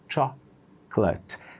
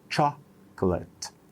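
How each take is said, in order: No difference in how they are said.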